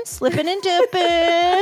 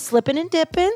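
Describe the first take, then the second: First: Higher, stretched-out catchphrase; playful drawn-out repeat. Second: Said in the usual way. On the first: Pretend. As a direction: draw out DIPPING long and high.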